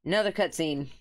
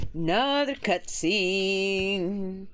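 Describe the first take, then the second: First: Said in the usual way. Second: Weary drawn-out repeat. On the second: Real, not acted.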